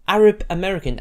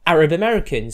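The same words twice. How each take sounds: First: Arab punched loud, American falling away; Arab said loud and first, American tossed off; stress on Arab. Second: American given the weight, falling tune; Arab light, American stressed. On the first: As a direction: hit Arab hard, then drop American. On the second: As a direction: lean into American. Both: Shown as a demonstration. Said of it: "Arab first over American".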